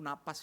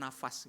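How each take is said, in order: First: The middle consonant is a p sound. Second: The middle consonant is an f sound. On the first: The speaker calls it right. "yang benar tuh napas ya" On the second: The speaker calls it wrong. "Bukan nafas gitu ya"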